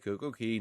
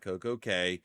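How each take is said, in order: First: The last word sounds like 'key'. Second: The last word sounds like 'kay'. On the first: The speaker calls it right. "why do you pronounce it perfect day, Coco Key" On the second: The speaker calls it wrong. "not Coco K? Isn't it supposed to rhyme?"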